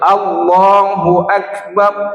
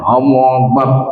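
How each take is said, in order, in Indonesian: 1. Setiap huruf diucapkan dengan jelas dan tegas. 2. Diucapkan tidak jelas, hurufnya hampir tidak terdengar. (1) "satu-satu hurufnya itu harus" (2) "Jangan macam buku kumur-kumur membacanya. ... tak ada hurufnya"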